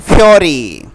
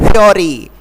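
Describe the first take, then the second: Both takes have the same delivery.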